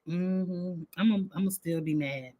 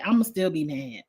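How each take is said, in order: First: A quick low grumble of still be mad; murmured aside, as if to herself; softer, faster mutter to herself. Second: Said in the usual way. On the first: Real, not acted. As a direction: drop the volume and rush it under her breath. Repeats that she'll stay mad.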